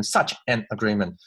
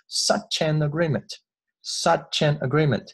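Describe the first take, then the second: First: "such an" 两词分开读，不连读; 把 "such" 和 "an" 逐词断开; 错误示范读法. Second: "such an" 连成一串读; 把 "such" 词尾滑进 "an"; 连读示范. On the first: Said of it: "这里呢我们不要读成". (错误示范："such an agreement" 不连读) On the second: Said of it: "这个such an呢我们稍微有一点连读". (示范 "such an agreement" 轻轻连读) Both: Shown as a demonstration.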